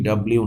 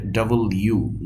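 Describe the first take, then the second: First: "ডাব্লিউ" run together; wrong pronunciation. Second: "ডাবল ইউ" as two words; corrected pronunciation. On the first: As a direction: slur "ডাব্লিউ" into "dab-liu". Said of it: "actually ডাব্লিউ না". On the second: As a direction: separate "ডাবল" from "ইউ". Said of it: "এটা হবে ডাবল ইউ". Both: Shown as a demonstration.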